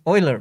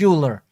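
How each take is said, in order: First: The name is pronounced the German way. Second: The name is pronounced the English way. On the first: This is how German speakers say the name. "in Germany we always called him Euler" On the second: This is how English speakers say the name. "the English call it Euler"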